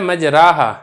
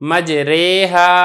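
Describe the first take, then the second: First: The vowel after r is a long open 'ah'. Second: The vowel after r is a middle 'ay' sound. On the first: The speaker calls it wrong. "लेकिन इसको मजराहा नहीं पढ़ा जाता" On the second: The speaker calls it right. "अलिफ को या की तरफ माइल करके आपने पढ़ना है"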